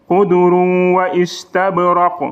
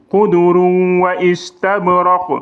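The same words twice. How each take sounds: The two takes are said the same way.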